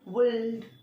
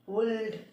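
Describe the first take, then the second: First: The L sound is clearly pronounced. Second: The L sound is clearly pronounced.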